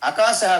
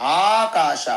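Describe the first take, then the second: First: The first vowel is short. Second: The first vowel is long. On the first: The speaker calls it wrong. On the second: The speaker calls it right.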